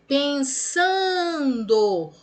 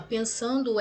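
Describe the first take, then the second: First: PENSANDO with SAN held long and loud; stretched stressed syllable. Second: Said in the usual way. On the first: Shown as a demonstration. Teacher shows pupils a paroxytone, stretched stress. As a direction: call out "pensando", dragging the SAN. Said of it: "parou no pá". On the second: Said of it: "é trissílaba paroxítona".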